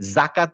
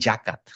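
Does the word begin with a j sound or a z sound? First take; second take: z sound; j sound. First: It begins with a buzzing z sound. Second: It begins with a j sound. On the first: The speaker calls it right. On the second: The speaker calls it wrong.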